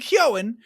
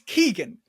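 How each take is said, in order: First: The name has no G sound in the middle. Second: The name has a hard G in the middle. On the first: This pronunciation sounds French rather than Irish. "another interview that called him Kyoan ... sounds French to me" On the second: This is the pronunciation most people use. "I have been told by many people, many people, it's Keegan"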